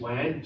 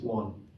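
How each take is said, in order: First: The vowel rhymes with the vowel of man. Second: The vowel matches the vowel of sun. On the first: The speaker calls it wrong. "It looks like we should pronounce it wan to rhyme with man" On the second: The speaker calls it right. "but we don't in English, it's just one"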